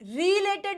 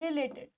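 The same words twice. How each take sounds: First: The first vowel is long. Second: The first vowel is short. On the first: The speaker calls it wrong. "रिलेटेड नहीं होता" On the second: The speaker calls it right. "छोटा री"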